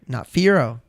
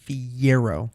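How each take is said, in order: First: No 'y' glide follows the first syllable. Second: A 'y' glide follows the first syllable. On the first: The speaker calls it wrong. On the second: The speaker calls it right.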